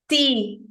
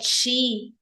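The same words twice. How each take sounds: First: The syllable is in a Northeastern Brazilian accent. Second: The syllable is in the common Brazilian accent. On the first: "tipo de algumas regiões do Nordeste" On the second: "como a maioria de nós falamos"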